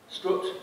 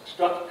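First: The vowel is the rounded northern English 'oo'. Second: The vowel is the open southern English 'uh'.

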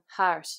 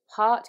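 First: The vowel sounds Dublin, moving towards ah. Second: The vowel sounds standard Southern British.

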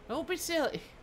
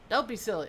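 First: It is said in a put-on character voice. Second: It is said in the speaker's natural voice.

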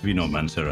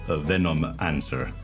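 First: The M begins the second part, mancer. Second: The M ends the first part, venom. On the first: The speaker calls it right. "it's Venomancer" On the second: The speaker calls it wrong. "and not Venomancer"

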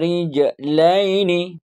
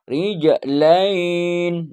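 First: The word ends with a final vowel. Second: The word ends without a final vowel. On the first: This is the full form used at the current level. "Dibaca semua ya" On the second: This is the form used after finishing this reading level. "Sesudah Iqra ini enggak"

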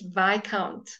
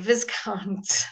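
First: The s in the middle is silent. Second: The s in the middle is pronounced. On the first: The speaker calls it right. "It's Viscount" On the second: The speaker calls it wrong. "You would never say Viscount"

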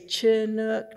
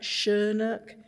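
First: It begins with a hard 'ch' sound. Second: It begins with a soft 'sh' sound. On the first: It names the people. The speaker calls it right. "I say Chinook ... the people are with a hard C-H" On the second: It names a warm wind. The speaker calls it wrong. "not Chinook"

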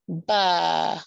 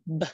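First: The consonant is followed by an added uh vowel. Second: The consonant is clipped short with no vowel. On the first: The speaker calls it wrong. "you might hear people say" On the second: The speaker calls it right. "We wanna teach students how to cut it short"

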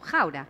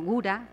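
First: It is said with the original Dutch pronunciation. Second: It is said with a local Spanish pronunciation. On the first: This is how it is really pronounced. The speaker calls it right. "pero en realidad se pronuncia como Gouda" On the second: This is how people here call it. The speaker calls it wrong. "Acá son conocidos como Gouda"

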